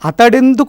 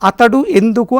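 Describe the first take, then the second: First: The two words are merged into one word. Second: The two words are said apart, no merging. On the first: "కలిపి పలుకుతూ ఉంటాం" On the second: "అని కాకుండా"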